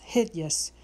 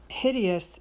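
First: "hideous" squeezed to "hid-yus"; two-syllable hideous. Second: Said in the usual way. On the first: Shown as a demonstration. Teacher showing how to scan the line, "hideous" as "hid-yus". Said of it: "hideous must have two syllables".

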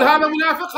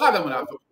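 First: هذا منافق punched out higher and louder; emphatic claim. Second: Said in the usual way. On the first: Shown as a demonstration. Cleric mimics opponent's claim loudly, then repeats it plainly. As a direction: hit هذا منافق hard, mock quoting him. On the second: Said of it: "تقول هذا منافق".

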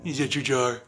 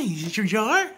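First: Said in the usual way. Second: High, sing-song pet voice. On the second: Real, not acted. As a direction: coo it up high like to a puppy. Cooing at the dog.

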